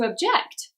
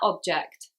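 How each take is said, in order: First: The stress is on the second syllable. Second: The stress is on the first syllable. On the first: It is a verb naming an action. "second syllable for a verb" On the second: It is a noun naming a thing. "first syllable for a noun"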